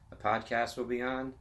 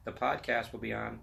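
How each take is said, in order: Both takes have the same delivery.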